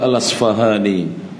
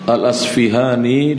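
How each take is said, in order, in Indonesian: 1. Vokal setelah 'Asf' adalah 'a'. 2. Vokal setelah 'Asf' adalah 'i'.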